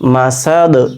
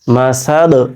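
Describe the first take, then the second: Both takes have the same delivery.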